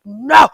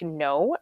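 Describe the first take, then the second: First: The word is yelled loudly and angrily. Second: The word is said firmly, without shouting.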